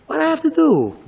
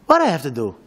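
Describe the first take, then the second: First: Higher, pleading what I have to do; desperate question. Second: Said in the usual way. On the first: Retold or imitated. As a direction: cry out for an answer.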